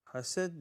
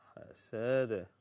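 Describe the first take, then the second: First: حسد cut short with no bounce on the final d; mistaken ending. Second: حسد with a bounced, echoed final d; slower حسد, releasing the dal with a small echo; bouncing dal. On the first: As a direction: end حسد on a plain stopped d. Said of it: "no, حسد". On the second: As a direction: let the d at the end of حسد bounce. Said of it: "Dal here is a bouncing letter". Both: Shown as a demonstration.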